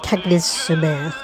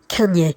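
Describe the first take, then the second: First: The name is pronounced as it is spelled. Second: The name is pronounced like French, kan-yeh. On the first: "I'm saying it so you can spell it" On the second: "is more like the French pronunciation"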